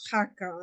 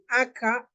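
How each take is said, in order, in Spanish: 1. La palabra empieza con sonido de h aspirada. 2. La palabra empieza directamente con una vocal. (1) "en otros lugares decimos" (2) "en algunos lugares dicen"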